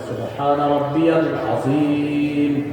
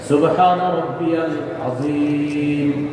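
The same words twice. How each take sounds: Both takes have the same delivery.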